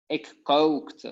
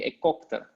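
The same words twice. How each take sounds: First: The vowel in kookte is held long. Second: The vowel in kookte is cut short. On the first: The speaker calls it right. "Usually you make it longer" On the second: The speaker calls it wrong. "otherwise it will be"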